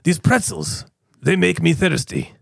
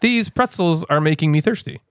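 First: It is said with a Russian accent. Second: It is said in his normal voice.

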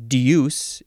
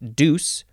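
First: A y sound comes between the d and vowel. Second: The vowel follows the d with no y sound.

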